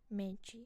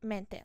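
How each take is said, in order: First: The ending sounds like 'chee'. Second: The ending sounds like 'teh'. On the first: This is the Portuguese pronunciation. "in Portuguese, mente is pronounced as mente" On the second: This is the Spanish pronunciation. "in Spanish ... is just pronounce it as mente"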